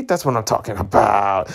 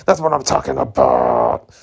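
First: Said in the usual way. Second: Very deep, hammed-up cheer; mock manly voice. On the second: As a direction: drop low like a macho man. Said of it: "you're so manly".

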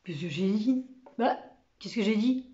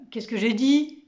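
First: Mildly muddled mumble; bewildered stammering. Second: Clearly voiced, mildly indignant query; baffled question. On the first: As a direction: mumble it, not knowing what was so funny. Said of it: "qui bredouillait". (bredouillement perplexe) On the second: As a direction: ask aloud what was so funny. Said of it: "demanda Lantier". (question étonnée à voix haute) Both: A narrator's reading.

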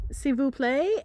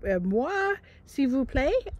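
First: French attempt. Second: Hammed-up French accent, rising at the end; mock French accent asking a stranger for help; fake French accent. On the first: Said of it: "only speaking French". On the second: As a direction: put on a clumsy French accent like a tourist. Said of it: "she said it better than I did".

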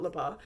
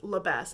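First: Labas with a silent final s; alternative pronunciation of Labas. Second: Labas with the final s sounded; pronunciation of Labas. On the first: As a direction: say "Labas" ending on an open vowel. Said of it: "not Labas". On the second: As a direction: say "Labas" ending on an audible s. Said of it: "I think it's pronounced Labas". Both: Shown as a demonstration.

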